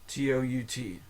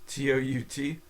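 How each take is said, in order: The two takes are said the same way.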